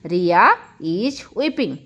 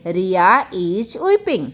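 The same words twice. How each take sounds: First: Very slow, stretched repeat; slower repeat. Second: Slow, careful model sentence; slow teacher demo. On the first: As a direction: say it again even slower for learners. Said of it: "repeated model sentence". (बहुत धीमी दोहराई) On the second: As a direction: lay it out slowly for the class. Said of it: "teacher model sentence". (धीमे से समझाते हुए) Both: Shown as a demonstration.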